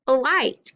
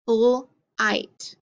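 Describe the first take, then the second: First: "Flight" in one piece, pitched up; blended word. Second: "Flight" split as "fl", pause, "ight"; sounded out. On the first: Teacher models putting sounds together, "Flight" blended into one word. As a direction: say "Flight" whole and higher, without a gap. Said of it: "put them together to make a word". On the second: Teacher gives sounds to echo, "Flight" split into fl and ight. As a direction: break "Flight" after the "fl" and leave a gap. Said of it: "echo the sounds that I say". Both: Shown as a demonstration.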